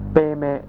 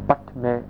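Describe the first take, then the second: First: It is pronounced in a Tibetan style. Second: It is pronounced in a Sanskrit style.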